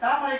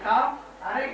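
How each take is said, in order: First: It is said as one joined word. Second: It is said split into two parts. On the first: The eyes are compared to a lotus. The speaker calls it wrong. "சேர்த்து படிச்சுட்டார்" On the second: The eyes are half closed. The speaker calls it right. "பிரிச்சு படிக்கணும்"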